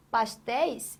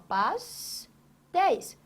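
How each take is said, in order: First: Said in the usual way. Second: "pastéis" broken into pas, pause, téis; syllable by syllable. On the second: Shown as a demonstration. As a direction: say "pastéis" slowly as two separate syllables. ("pastéis" separado em duas sílabas, com pausa) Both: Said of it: "olha aqui, ó".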